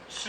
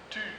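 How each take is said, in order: First: The t has a hissing s sound after it. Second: The t is a plain, clean stop. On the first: This is how it is said in Quebec. "Au Québec, on ajoute un petit S" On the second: This is how it is said in France. "en France, ça fait tu"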